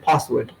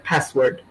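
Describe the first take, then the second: First: It is said in a British accent. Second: It is said in an American accent. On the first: "if you say it in a British accent" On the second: "if you're saying it in an American accent"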